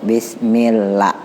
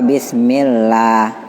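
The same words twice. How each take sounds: First: The vowel in 'lah' is held for one count. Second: The vowel in 'lah' is held for two counts. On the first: The speaker calls it wrong. "Kalau satu Bismillah" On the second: The speaker calls it right. "Dua Bismillah"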